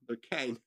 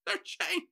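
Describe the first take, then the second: First: "cane" said for "chain", with a hard k; misread word. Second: "chain" with a ch sound, pitched up; corrected word. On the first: Reader stumbling over the script, misread "cane". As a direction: say "cane" where "chain" belongs. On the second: Reader fixing the misread script, corrected "chain". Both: Shown as a demonstration.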